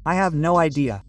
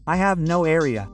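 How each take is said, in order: First: Said in the usual way. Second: "area" for idea, the D tapped into an R; colloquial tapped D. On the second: Shown as a demonstration. Teacher shows learners the usual spoken form, "area" with a tapped R. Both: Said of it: "Is also usually said like that".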